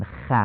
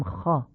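First: خ with Persian short a; Persian fatha. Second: خا with open short a; Arabic fatha. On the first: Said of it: "نمیگیم خ". (خ با فتحهٔ فارسی) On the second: (خا با فتحهٔ عربی درشت) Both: Shown as a demonstration.

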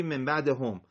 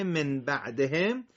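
First: بعدهم misread with final bædehom; wrong reading. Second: Said in the usual way. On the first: Shown as a demonstration. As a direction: read بعدهم ending in hom instead of hem. (بعدهم اشتباه با صدای هُم) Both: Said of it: "یهو اشتباهی".

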